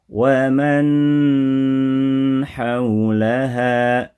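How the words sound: The nasal sound is stretched out too long. "terlalu lama prakteknya"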